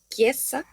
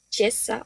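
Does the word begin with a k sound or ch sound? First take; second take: k sound; ch sound. First: The word begins with a k sound. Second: The word begins with a ch sound. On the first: The speaker calls it right. "se pronuncia como una K" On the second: The speaker calls it wrong. "no diríamos chiesa o algo similar"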